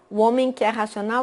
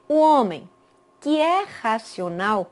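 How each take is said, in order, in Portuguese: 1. A frase inteira sai junta, sem nenhuma pausa. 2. As pausas separam 'que é racional' de 'homem'. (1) "quando eu ligo" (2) "o tom da minha voz é diferente, porque eu vejo duas vírgulas"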